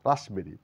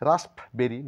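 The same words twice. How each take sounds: First: No p sound is heard in the middle. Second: A p sound is heard in the middle. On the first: The speaker calls it right. "বলবো" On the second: The speaker calls it wrong. "না বলে"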